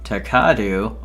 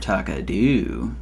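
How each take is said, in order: First: The stress is on the second syllable. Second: The stress is on the third syllable.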